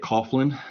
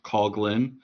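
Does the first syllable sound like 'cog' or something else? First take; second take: other; cog. First: The first syllable does not sound like 'cog'. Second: The first syllable sounds like 'cog'. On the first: The speaker calls it wrong. "the temptation is to say Coughlin. That is not correct" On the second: The speaker calls it right. "it is, I believe, Coughlin"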